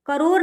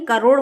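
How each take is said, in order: First: करोड़ ending in plain r; wrong pronunciation. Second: Said in the usual way. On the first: Shown as a demonstration. Teacher shows the misspelling, ending in plain r. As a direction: swap the flapped ṛ of करोड़ for r. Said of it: "करोड़ नहीं". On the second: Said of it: "करोड़ होता है".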